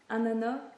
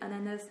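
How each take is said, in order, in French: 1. Le s final est muet. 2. Le s final est prononcé. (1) "moi je prononce pas la fin" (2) "on dit ananas"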